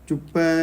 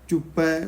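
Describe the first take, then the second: No difference in how they are said.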